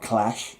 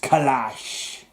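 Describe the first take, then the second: First: The name is said as one plain word. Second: The name has a small break for the apostrophe. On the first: The speaker calls it wrong. "it's not Clash" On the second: The speaker calls it right. "it's Clash. Because there's a little uh, apostrophe"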